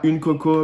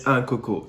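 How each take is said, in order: First: "une coco" with the feminine article une; wrong article. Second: "un coco" with the masculine article un; right article. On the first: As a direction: say "une coco" as the common mistake. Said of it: "on ne dit pas une coco". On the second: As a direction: say "un coco" as the correct Réunion form. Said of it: "mais un coco". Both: Shown as a demonstration.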